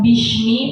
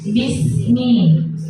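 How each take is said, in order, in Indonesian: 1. Konsonan di tengah adalah bunyi sh. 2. Konsonan di tengah adalah bunyi s biasa. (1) "bukan bishmi" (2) "tapi sin biasa"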